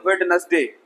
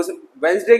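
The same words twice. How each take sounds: First: वेडनेसडे with every D sounded; common mispronunciation. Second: वेडनेसडे said as वेन्सडे, silent D; correct pronunciation. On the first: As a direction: say वेड-नेस-डे for वेडनेसडे. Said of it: "क्या बोलते हैं". (गलत उच्चारण, वेडनेसडे में "ड" बोलकर) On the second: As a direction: drop the first D in वेडनेसडे. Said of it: "के बजाय क्या बोलते हैं". (सही उच्चारण, वेडनेसडे को "वेन्सडे") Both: Shown as a demonstration.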